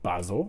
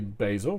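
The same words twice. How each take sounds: First: It is said in a British accent. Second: It is said in an American accent. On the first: "we say basil" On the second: "you say basil"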